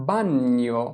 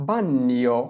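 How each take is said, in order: No difference in how they are said.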